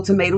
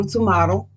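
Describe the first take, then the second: First: Tomato as tuh-MAY-toe; tomato with an "ay" in the middle; tomato, long A. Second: Tomato as tuh-MAH-toe; tomato with an "ah" in the middle; tomato, broad A. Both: Shown as a demonstration. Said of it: "However you wanna pronounce it".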